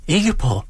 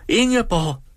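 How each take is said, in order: First: "Ingeborg!" called out high, falling at the end; lady in the carriage calling to a friend, first call; calling a name. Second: "Ingeborg!" called again much higher, falling at the end; lady in the carriage calling her friend a second time, higher; calling louder. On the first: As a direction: call "Ingeborg!" across the street. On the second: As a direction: call "Ingeborg!" again, more insistently. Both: A narrator's reading. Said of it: "råbte den ene af damerne".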